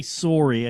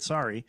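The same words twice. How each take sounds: First: Sorry with an "oh" in the first syllable; rounded "soh-ree". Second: Said in the usual way. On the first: Shown as a demonstration. Denying they talk that way, sorry said as "soh-ree". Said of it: "I don't say sorry". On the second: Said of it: "I said sorry".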